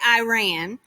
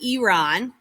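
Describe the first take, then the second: First: The first vowel sounds like "eye". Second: The first vowel sounds like "ee". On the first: The speaker calls it wrong. "I know a lot of people say Iran" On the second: The speaker calls it right. "the correct way is actually Iran, like an E instead of an I"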